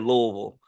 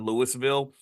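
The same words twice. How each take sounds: First: The syllables are blurred together into one run. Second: The syllables are said separately and distinctly. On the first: The speaker calls it right. "blur the whole word together" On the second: The speaker calls it wrong. "you don't say Louisville"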